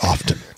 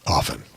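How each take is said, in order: First: The word is said with a pronounced T. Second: The word is said with a silent T. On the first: "most people I'm hearing say it" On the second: "the the T is silent"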